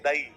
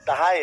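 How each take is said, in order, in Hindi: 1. स्वर बिना h की ध्वनि के आपस में मिल जाते हैं। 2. एक h की ध्वनि दोनों स्वरों को अलग करती है। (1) "तो दाई नहीं है वो" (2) "वर्ड क्या है? दहाय है वो"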